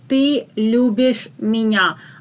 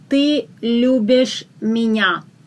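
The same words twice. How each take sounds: No difference in how they are said.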